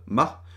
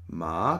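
First: The syllable is said short and clipped. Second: The syllable sounds like a question. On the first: "das kurze Ma" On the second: "das etwas fragend klingt"

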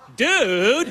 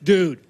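First: It is said with irritated impatience. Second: It is said as a flat statement.

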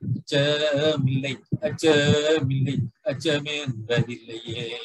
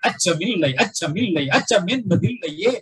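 First: It is recited flatly, without feeling. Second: It is recited with spirited, forceful feeling. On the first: The meaning of the poem does not come through. The speaker calls it wrong. "If you say like that, then it is not the exact way of reading" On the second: The fearlessness of the poem comes through. The speaker calls it right. "That is how we let read the tone"

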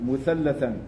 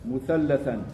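No difference in how they are said.

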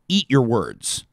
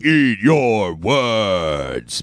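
First: It is said plainly, without any showmanship. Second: It is said dramatically, like a show announcement. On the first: The speaker calls it wrong. "I'll just say the words" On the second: The speaker calls it right. "it's more like"

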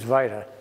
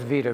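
First: It uses the traditional old British pronunciation. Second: It uses the common everyday pronunciation. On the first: This is the older, traditional way to say it. "the traditional pronunciation is vita" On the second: This is how most people say it. "Everybody says vita"

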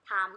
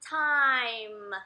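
First: The vowel is a plain, flat 'a' sound. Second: The vowel glides from 'a' to 'i'. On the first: The speaker calls it wrong. "คำนี้บ้านเราจะออกเป็น" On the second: The speaker calls it right. "มันออกเสียงสระไอ"

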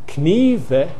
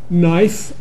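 First: The K is sounded at the start. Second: The K is silent at the start. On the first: This is how it was said about 600 years ago. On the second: This is the modern pronunciation.

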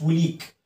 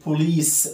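First: The word ends with a k sound. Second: The word ends with an s sound. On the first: The speaker calls it wrong. "مش بوليك" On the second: The speaker calls it right. "بوليس مش بوليك"

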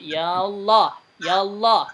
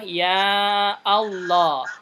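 First: Ya links straight into Allah without a stop. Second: A glottal stop separates ya from Allah. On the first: "membiarkan alif wasl" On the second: "memfathahkan hamzah wasl"

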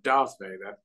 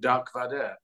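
First: The first name ends with a 'th' sound. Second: The first name ends with a 'k' sound. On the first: This is how English speakers say the name. "instead of Darth Vader" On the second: This is how French speakers say the name. "they call him Dark Vader instead of Darth Vader"

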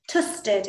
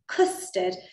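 First: The first sound is replaced by a t sound. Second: The first sound is the standard k sound. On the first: This is how a young child says it. The speaker calls it wrong. "He's been saying ... tusted instead of custard" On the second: This is the intended pronunciation. The speaker calls it right. "instead of custard"

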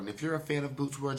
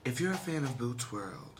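First: It is said in his plain voice. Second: It is said in a put-on sexy voice.

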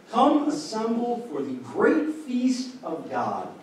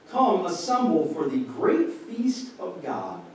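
No difference in how they are said.

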